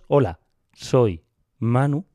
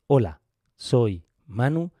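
First: The start of each word sounds louder. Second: The start of each word sounds squashed. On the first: "¿notas que el principio de las palabras es más alto?" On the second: "las palabras están comprimidas al principio, porque la liberación es de doscientos milisegundos"

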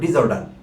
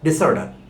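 First: The prefix is said with a buzzing z sound. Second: The prefix is said with a hissing s sound. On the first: This is the common local pronunciation. The speaker calls it wrong. "আমাদের দেশে প্রচলিত উচ্চারণ হলো ডিসঅর্ডার" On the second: This is the dictionary pronunciation. The speaker calls it right. "ডিকশনারি সিদ্ধ উচ্চারণ হলো ডিসঅর্ডার"

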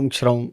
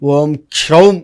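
First: Kshaum is pronounced softly, without force. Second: Kshaum is pronounced forcefully. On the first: The speaker calls it wrong. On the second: The speaker calls it right.

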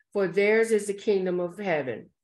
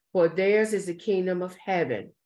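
No difference in how they are said.

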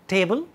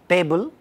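First: The tongue tip touches just behind the upper teeth. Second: The tongue tip is curled back for the first sound. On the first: "speakers of English get their tip of the tongue there" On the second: "it is getting rolled back"

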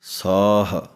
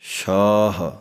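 First: The word begins with a plain s sound. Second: The word begins with an sh sound.

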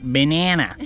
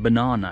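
First: It is said with an American pronunciation. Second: It is said with a British pronunciation. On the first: The speaker is not American. The speaker calls it wrong. "not banana, because I am not a Beiguolin" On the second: The speaker is British. The speaker calls it right. "I said banana, ... I'm a Inguolin"

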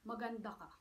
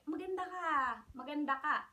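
First: It is said in a flat, insincere way. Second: It is said in a warm, sincere way. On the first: The compliment is not really meant. The speaker calls it wrong. "I say it like that. It doesn't sound nice. It doesn't sound sincere" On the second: The compliment is truly meant. The speaker calls it right. "it's different"

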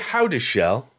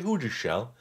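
First: The first syllable sounds like 'how'. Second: The first syllable sounds like 'who'. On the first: "I might say how to shell" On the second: "but you may say who to shell"

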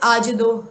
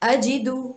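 First: The vowels are shifted in a careless reading. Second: The vowels are articulated fully and precisely. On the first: The speaker calls it wrong. "इसे लोग कहते हैं आजदो आजेदो, इस तरह से करके" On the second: The speaker calls it right. "अगर आप ऐसे ही पढ़ते हैं तो ये अंदाज गलत है"

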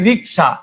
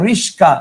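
First: The k sound comes before the s sound. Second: The s sound comes before the k sound. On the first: "ক ছিল আগে" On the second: "স ছিল পরে, এটা আসছে আগে"

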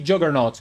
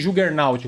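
First: The name is said with an English pronunciation. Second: The name is said with a Portuguese pronunciation.

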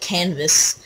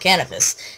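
First: The word is said with two syllables. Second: The word is said with three syllables. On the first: The speaker calls it wrong. "I called it canvas" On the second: The speaker calls it right. "now I call it cannabis"

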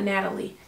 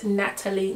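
First: The T in the middle is softened or dropped. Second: The T in the middle is clearly pronounced. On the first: The speaker calls it wrong. "not Natalie. Pronounce the T" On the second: The speaker calls it right. "it's Natalie"

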